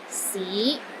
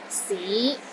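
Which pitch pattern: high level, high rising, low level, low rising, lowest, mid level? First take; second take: low rising; low rising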